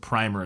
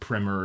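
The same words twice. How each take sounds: First: The first vowel is a long I sound. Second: The first vowel is a short I sound. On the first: "that long I is probably more correct" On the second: "also acceptable, but mainly used in America"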